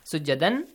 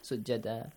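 First: The word ends with an n sound. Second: The word ends with a long a vowel. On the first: The speaker calls it wrong. "Instead of saying" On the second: The speaker calls it right. "If you stop here, ... Fatha will be changed to? Alif"

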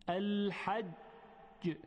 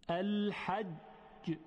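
The two takes are said the same way.

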